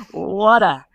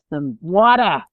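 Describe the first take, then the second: First: Water said the British way, with no r at the end; crisp British pronunciation; British accent. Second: WATER in an exaggerated American accent, loud, pitch swooping up; hammed-up American pronunciation of water; American-style water. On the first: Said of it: "I can't say water". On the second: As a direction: put on a big American "wah-der" for water. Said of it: "I have to really say". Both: Shown as a demonstration.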